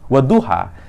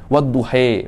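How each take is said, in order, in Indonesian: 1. Vokal akhirnya bunyi 'a' yang terbuka. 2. Vokal akhirnya bunyi 'e' yang condong. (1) "tulisannya sama" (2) "wadduha menjadi wadduhe"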